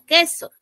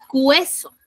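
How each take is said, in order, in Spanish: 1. La u es muda; solo suena la e. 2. Se oye un sonido de w antes de la e. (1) "no suena la U, solo suena la E" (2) "diría cueso"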